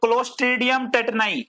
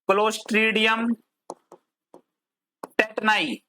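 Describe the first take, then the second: First: Said in the usual way. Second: Drawn-out word by word, long pauses; slow dictation. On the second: Shown as a demonstration. Teacher spelling out a bacterium name for students, slow dictation. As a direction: dictate it slowly, pausing before the second word.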